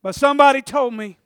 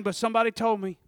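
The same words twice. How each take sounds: First: Loud, higher, insistent declaration; emphatic repeat. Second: Said in the usual way. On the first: Retold or imitated. Preacher voicing the woman justifying her touch, emphatic repeat. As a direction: press it home with raised voice.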